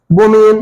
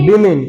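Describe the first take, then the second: First: बोमेन as bo-men, loud and held; wrong pronunciation. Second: बीमिन as bee-min, falling; correct pronunciation. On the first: Teacher mocking students' mistake, बोमेन said loudly as bo-men. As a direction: hit बोमेन loudly with o and e vowels. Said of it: "बोमेन थोड़ी लिखा हुआ है". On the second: Teacher correcting students on the plural, बीमिन as bee-min. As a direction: say बीमिन with ee and short i. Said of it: "ये क्या लिखा हुआ है". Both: Shown as a demonstration.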